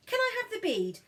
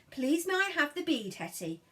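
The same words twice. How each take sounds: First: Put-on much higher, sing-song child's request; coaxing demo. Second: Lightly voiced polite request; coaxing demo. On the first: Big sister coaxing silent brother to ask, high sing-song. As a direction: model it brightly for him. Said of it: "You don't even have to say please". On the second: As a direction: show him the words, gently. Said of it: "all you have to do is say".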